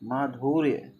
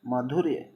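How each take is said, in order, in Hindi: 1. शब्द में u स्वर दीर्घ है। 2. शब्द में u स्वर ह्रस्व है। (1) "माधुर्य गलत" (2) "छोटा उप मात्रा रहेगा"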